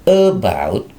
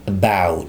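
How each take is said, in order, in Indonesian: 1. Tekanannya ada pada suku kata pertama. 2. Tekanannya ada pada suku kata kedua. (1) "jangan about" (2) "Ditekan di simbol B-nya nih"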